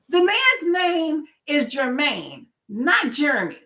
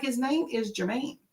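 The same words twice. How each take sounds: First: High, slow, emphatic correction; not so nice, drawn-out insistence; firm correction. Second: Soft, gentle correction; nicer correction. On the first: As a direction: spell it out firmly, leaning on "Jermaine". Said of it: "I would be nicer about it". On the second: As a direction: correct them politely without pushing. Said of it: "I would say it like that". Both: Retold or imitated.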